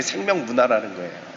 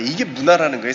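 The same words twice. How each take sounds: First: 생명 leaned on, sentence falls after it; 생명 stressed, softer overall. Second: Said in the usual way. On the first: Shown as a demonstration. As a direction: give 생명 the weight of the correction.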